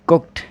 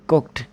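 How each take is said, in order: The two takes are said the same way.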